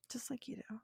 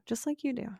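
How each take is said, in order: First: Very soft, breath-only whisper; whispered repeat. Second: Said in the usual way. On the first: Real, not acted. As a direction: whisper it knowingly to the listener.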